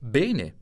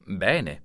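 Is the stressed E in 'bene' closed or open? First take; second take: closed; open. First: The stressed E is closed. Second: The stressed E is open. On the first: This is how people in northern Italy say it. The speaker calls it wrong. "Nel nord Italia risponderebbero" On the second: This is how people in southern Italy say it. The speaker calls it right. "Nel sud Italia direbbero"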